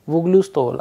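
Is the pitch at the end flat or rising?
flat. The pitch stays flat to the end. It is a plain statement.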